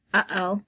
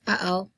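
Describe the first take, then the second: No difference in how they are said.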